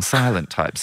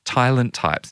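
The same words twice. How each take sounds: First: Said in the usual way. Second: "silent" said with its opening S garbled towards a T; wrong first sound. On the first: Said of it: "Silent, silent with an S". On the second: Retold or imitated. Host misrepeating the team's motto, "silent" mispronounced as "tylent". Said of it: "silent with an S".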